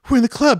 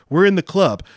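First: It is said in an imitated, put-on voice. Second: It is said in the speaker's ordinary voice.

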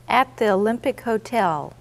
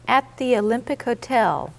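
Both takes have the same delivery.

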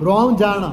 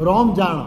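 No difference in how they are said.

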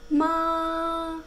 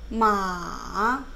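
First: The pitch stays high and level. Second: The pitch dips low, then rises. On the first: "마의 성조는 1성입니다. 발음해 보면 마" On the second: "삼성은 이렇게 내려갔다가 올라간 거예요. 마로 연습하면 마"

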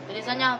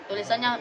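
The two takes are said the same way.

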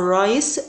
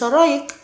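First: The c is said as an s sound. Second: The c is said as a k sound. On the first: The speaker calls it right. "بقول رايس" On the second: The speaker calls it wrong. "وليس رايك"

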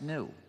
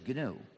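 First: The word starts without a G sound. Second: The word starts with an audible G sound. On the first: This is the dictionary pronunciation of the animal's name. The speaker calls it wrong. "the G is silent and it's pronounced new" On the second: This is the name of the system. The speaker calls it right. "please do not pronounce it according to the dictionary"

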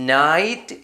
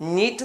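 First: The vowel sounds like 'eye'. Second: The vowel sounds like 'ee'. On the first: The speaker calls it right. "നൈറ്റ് എന്ന് വായിക്കണം" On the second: The speaker calls it wrong. "നീറ്റ് എന്ന് വായിക്കില്ല"

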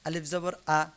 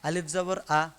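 The two takes are said the same way.

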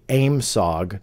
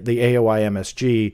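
First: It is pronounced as a single word. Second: It is spelled out letter by letter.

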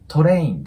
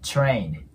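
First: The word starts with a plain t sound. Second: The word starts with a ch-like sound. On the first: The speaker calls it wrong. "train ではなく" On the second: The speaker calls it right. "中の口から発音すると綺麗に聞こえます"

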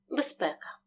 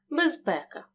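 First: Said quickly with the z devoiced to s. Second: Said slowly with a clearly voiced z sound. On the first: "Якщо вимовити слово швидше, відбудеться оглушення «з» до «си»" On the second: "«З» вимовляємо чітко"

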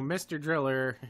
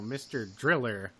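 First: The name is said with neutral, plain emphasis. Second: The name is said with shifted, suggestive emphasis. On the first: It is just the name of a game. "it's kind of neutral" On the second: It hints at something sexual. "that sounds a little bit uncomfortable"

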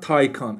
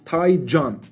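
First: The name is said the common English way. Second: The name is said the Turkish way. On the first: The speaker calls it wrong. "not Taycan" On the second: The speaker calls it right. "It's Taycan in Turkish"

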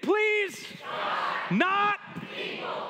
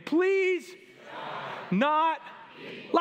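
First: It is said with force and conviction. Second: It is said in a casual way.

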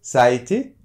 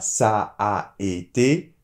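First: The two a sounds merge into one long a. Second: The two a sounds are said separately. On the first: The speaker calls it right. "on prolonge un petit peu le A" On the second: The speaker calls it wrong. "on ne dit pas"

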